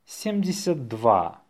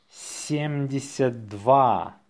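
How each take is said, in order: First: Natural-speed dictation; faster. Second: Slow, drawn-out dictation. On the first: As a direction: run the number together briskly. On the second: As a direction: say it slowly for learners. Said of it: "say it slowly". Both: Shown as a demonstration.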